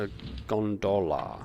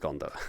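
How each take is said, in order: First: The word is pronounced in an odd, jokey way. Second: The word is pronounced in the ordinary way. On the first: The speaker calls it wrong. "I know that I'm pronouncing it weird" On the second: The speaker calls it right. "I know how to pronounce gondola"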